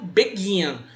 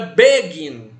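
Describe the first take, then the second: First: The stress is on the second syllable. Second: The stress is on the first syllable. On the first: The speaker calls it right. "ele é dito begin" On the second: The speaker calls it wrong. "não é begin"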